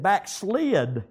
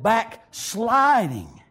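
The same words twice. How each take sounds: First: Said in the usual way. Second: "Backsliding" drawn out very slowly; stress on BACKSLIDING. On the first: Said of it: "he didn't say that they had backslid". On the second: Shown as a demonstration. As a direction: stretch out each part of "Backsliding". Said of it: "He said".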